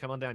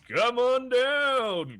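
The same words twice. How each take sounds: First: It is said in an ordinary, plain speaking voice. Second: It is said in a booming game-show announcer voice. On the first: The speaker calls it wrong. "you just can't be like" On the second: The speaker calls it right. "put in the voice"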